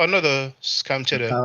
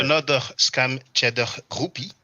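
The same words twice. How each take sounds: First: Put-on joking French accent, a bit higher and louder. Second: Mock French accent with a throaty French R. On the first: Hesitant first go at reading a comment, French accent. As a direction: play it up in a fake French accent for fun. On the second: Reading out a viewer's comment on the live, French accent. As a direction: ham up the French accent just for fun. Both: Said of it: "I was about to speak like this with a French accent".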